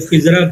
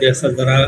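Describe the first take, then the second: First: The first vowel is a short 'i'. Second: The first vowel is an open 'a'. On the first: The speaker calls it wrong. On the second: The speaker calls it right.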